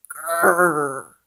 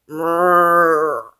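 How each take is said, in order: First: Werewolf growl. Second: Louder rumbling monster growl. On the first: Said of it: "says the werewolf". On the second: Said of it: "says the monster". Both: A narrator's reading.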